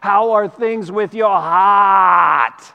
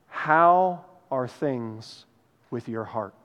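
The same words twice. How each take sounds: First: It is spoken in an Australian accent. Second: It is spoken in a Midwestern American accent.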